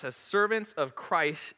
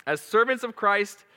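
First: Put-on baby voice. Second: Giggling, higher and louder; laughing through the verse. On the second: Real, not acted. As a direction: read it while cracking up. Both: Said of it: "I got baby voice going".

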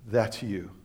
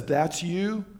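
First: Low, soft voice of the Spirit; quiet inner voice. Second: Said in the usual way. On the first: Retold or imitated. Holy Spirit speaks while reading.

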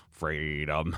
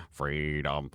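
No difference in how they are said.

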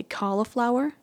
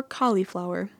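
First: "cauliflower" said CALL-uh-flower; pronunciation with middle UH. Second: "cauliflower" said COLL-ee-flower; pronunciation with middle EE. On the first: Vlogger asking viewers which they say, cauliflower with middle uh. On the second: Vlogger offering the other option, cauliflower with middle ee. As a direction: give "cauliflower" a clear ee in the middle. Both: Shown as a demonstration. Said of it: "Do you say cauliflower or cauliflower".

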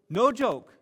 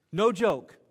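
First: Higher, louder insistence; mock-serious emphasis; no joke, louder again. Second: Emphatic aside, raised voice; pressing the point home; no joke, louder. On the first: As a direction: push it harder the second time. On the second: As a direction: insist it's true, loudly. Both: Real, not acted. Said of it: "emphatic repeat".

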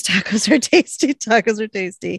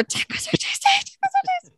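First: Louder, slightly raised quoted signal; quoting an urgent signal; retold signal. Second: Very high, squeaky panicked imitation; high-pitched mock-frantic whisper into an earpiece. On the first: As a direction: call out the signal, then repeat it. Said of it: "sends up the signal, says". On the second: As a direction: squeak out the signal in a hammed-up panic.

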